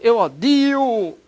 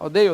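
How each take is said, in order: First: The word has a plain 'i' after the d. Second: The word has an 'ei' diphthong after the d. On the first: The speaker calls it wrong. "Não vai dizer" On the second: The speaker calls it right. "Odiar, odeio"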